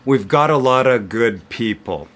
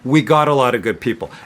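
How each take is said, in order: First: The 've contraction is heard after we. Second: The 've contraction is dropped after we.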